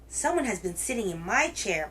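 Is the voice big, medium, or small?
big. It is said in a great big roaring voice.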